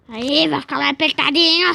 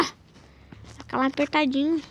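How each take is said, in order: First: Loud. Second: Said in the usual way. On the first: Shown as a demonstration.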